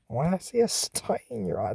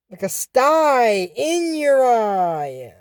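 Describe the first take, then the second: First: Puzzled mutter. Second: Very slow, stretched-out Like a sty in your eye; slow silly line. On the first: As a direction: murmur Why I see a sty in your eye, baffled. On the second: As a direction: drag out every word of Like a sty in your eye, sing-song. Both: Shown as a demonstration.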